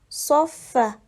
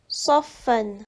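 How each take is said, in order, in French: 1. Le mot se termine par une voyelle seule. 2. Le mot se termine par un son n. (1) "Comme il y a un arrêt, il faut lire saffa" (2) "C'est le mot saffan"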